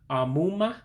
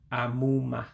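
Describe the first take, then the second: First: The pitch stays level without dropping. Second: The pitch drops on the a sounds. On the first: The speaker calls it wrong. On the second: The speaker calls it right.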